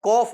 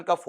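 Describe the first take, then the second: First: "कॉफ" with an open "aw" vowel, kawf; corrected "kof". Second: "कफ" said with a short "uh" vowel, kuhf; mistaken "kaf". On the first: Teacher correcting students on cough, corrected "kawf". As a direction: stress "कॉफ" with a long open aw, ending in f. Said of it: "बल्कि क्या होता है आपका?". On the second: Teacher showing students what cough is not, mistaken "kaf". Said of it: "इसका उच्चारण कफ होता ही नहीं है". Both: Shown as a demonstration.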